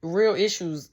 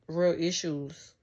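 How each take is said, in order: First: Real issues pushed out louder, REAL stressed; emphatic. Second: Slow, weighty real issues; slow, drawn out. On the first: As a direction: hit REAL hard and louder. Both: Shown as a demonstration. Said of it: "But do you hear how that sound?".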